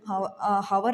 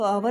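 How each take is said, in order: First: The word starts with an h sound. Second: The word starts with a vowel, no h. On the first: The speaker calls it wrong. "हावर नहीं बोलते इसको" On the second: The speaker calls it right. "आवर बोलते हैं हम इसको"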